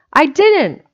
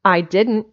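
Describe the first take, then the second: First: Put-on high, loud childish protest; heated denial. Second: Firm denial at ordinary pitch. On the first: Specs denies it once more to Jimsy, heatedly. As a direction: deny it harder, pitch and volume jumping. Boys squabble, denial escalates. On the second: Acted. Specs denies what Jimsy accuses him of, firmly. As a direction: deny it squarely, without yet raising the pitch. Boys squabble, first denial.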